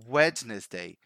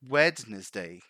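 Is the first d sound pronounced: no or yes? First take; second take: yes; yes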